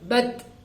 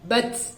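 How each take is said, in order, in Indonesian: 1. Bunyi t akhir diakhiri dengan hembusan napas pendek. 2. Bunyi t akhir dilepas terlalu kuat sehingga menjadi desis seperti s. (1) "Dia hamas" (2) "terlalu lepas sehingga dia akan masuk ke makhraj huruf yang lain. Sin misalkan"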